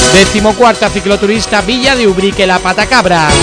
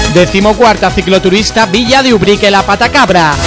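The two takes are said the same way.

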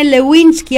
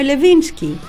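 First: The name is said with a w sound. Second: The name is said with a v sound. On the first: This is how the name is really pronounced. The speaker calls it right. "που τη λένε Λεουίνσκι" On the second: This is how people locally used to say it. The speaker calls it wrong. "αλλά εμείς τη λέγαμε Λεβίνσκι"

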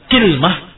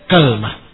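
First: An i follows k and no vowel follows l. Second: An a follows k and no vowel follows l. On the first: "dikasrahkan kafnya atau ... bersama sukunul lam" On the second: "fathul kaf ... bersama sukunul lam"

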